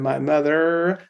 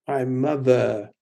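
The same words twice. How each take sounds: First: The final R is clearly pronounced. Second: The final R is dropped to a schwa. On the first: The speaker calls it wrong. "unless I'm trying to sing Texan" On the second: The speaker calls it right. "becomes a schwa"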